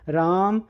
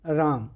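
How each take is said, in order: First: The name is shouted very loudly. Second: The name is called more loudly.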